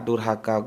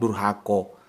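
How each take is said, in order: First: The final vowel is an open 'a'. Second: The final vowel is a rounded 'o'.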